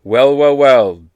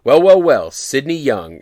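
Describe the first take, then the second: First: Loud, mock-smug echo of her well well well; cheeky copycat comeback; mocking retort. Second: Higher, louder mock-smug well well well; a touch of a sneering party gatekeeper; smug greeting. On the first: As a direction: throw her words right back at her. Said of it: "Such an amazing retort". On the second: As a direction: gloat like you've caught him. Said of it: "random woman comes out of nowhere and she goes".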